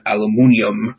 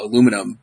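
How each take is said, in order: First: It is said the British way, five syllables. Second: It is said the American way, four syllables.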